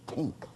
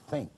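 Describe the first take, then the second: First: The word begins with a hard t sound. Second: The word begins with a soft th sound. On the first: "she pronounced as tink" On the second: "a word like think"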